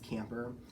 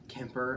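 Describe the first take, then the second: First: The first syllable sounds like 'cam'. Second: The first syllable sounds like 'kim'. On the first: The speaker calls it right. "and it's Camper" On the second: The speaker calls it wrong. "I kept saying Kemper last night, like K I M P R"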